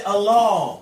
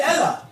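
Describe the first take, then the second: First: Allah said as "al-LAAH", long dark second vowel; Arabic pronunciation. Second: Allah said as "EL-ah", short open e first; Hebrew pronunciation. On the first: Speaker contrasting Arabic with Hebrew for his co-host, Arabic pronunciation. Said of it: "in Arabic you say". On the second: Speaker contrasting Hebrew with Arabic for his co-host, Hebrew pronunciation. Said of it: "In Hebrew you say". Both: Shown as a demonstration.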